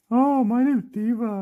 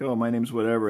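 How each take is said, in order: First: Loud, high toy-bear voice; Diva. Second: Said in the usual way. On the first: Pretend. Toy bear repeats her name in reply, high funny voice. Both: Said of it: "they'll be like".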